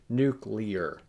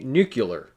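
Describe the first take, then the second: First: The word ends like clear, in '-clear'. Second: The word ends like muscular, in '-cular'. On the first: The speaker calls it right. "what it really is, which is nuclear" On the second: The speaker calls it wrong. "we tend to say nuclear ... because we're used to words like muscular and tubular"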